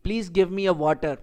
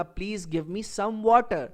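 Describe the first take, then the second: First: Slow wrong example. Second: Slow correct example. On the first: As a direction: say it slowly, with a plain "a" before water. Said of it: "یہ ہمارا question غلط ہوا". (غلط جملہ، آہستہ "a water") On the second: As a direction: say it slowly, with a clear "some" before water. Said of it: "اس کا صحیح جملہ جو بنے گا". (صحیح جملہ، آہستہ "some water") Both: Shown as a demonstration.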